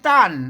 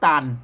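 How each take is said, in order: First: The syllable is said with a falling tone. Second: The syllable is said with a low tone. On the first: "ใส่ไม่โทต้าน" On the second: "ใส่ไม่เอกตาลตาลเสียงเอก"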